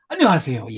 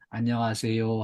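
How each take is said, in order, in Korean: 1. 밝고 따뜻하게, 웃으면서 해요. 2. 작은 소리로 웅얼거리고 열의가 없어요. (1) "마주 보고 마주치고 웃으면서" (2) "아주 기어 들어가는 목소리로 들리지도 않게 들릴랑 말랑하게"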